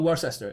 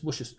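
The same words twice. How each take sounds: First: The middle syllable is pronounced. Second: The middle syllable is dropped. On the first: The speaker calls it wrong. "It's not Worcester" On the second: The speaker calls it right. "the middle bit is just gone"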